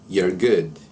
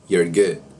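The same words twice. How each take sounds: First: You are is squeezed into one syllable. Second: The same.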